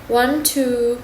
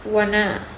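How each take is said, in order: First: The two words are said separately and clearly. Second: The two words are blended into one reduced word.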